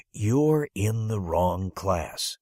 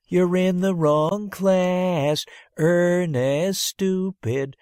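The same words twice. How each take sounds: First: Very slow, deliberate; slow verdict. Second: Much higher, louder, very slow sing-song taunt; taunting kids. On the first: Teacher telling the boy he's in the wrong class, slow. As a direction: spell out the bad news slowly. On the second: Classmates jeering at the boy in the wrong class, sing-song taunt. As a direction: jeer at him like a mocking kid. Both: Acted.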